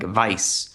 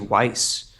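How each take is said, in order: First: The name is said with a German sound. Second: The name is said with an English sound. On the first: This is how the name is said in German. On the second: This is how the show says the name.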